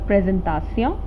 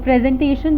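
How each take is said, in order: First: The word is pronounced the French way. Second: The word is pronounced the English way.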